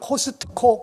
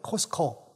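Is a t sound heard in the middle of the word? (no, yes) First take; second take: yes; no. First: A t sound is heard mid-word. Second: No t sound is heard mid-word. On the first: This is how Korean speakers usually say it. "한국 분들은 코스트코 그렇게 발음하는데" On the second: This is how it is said in America. "T자는 발음을 안 하고 코스코"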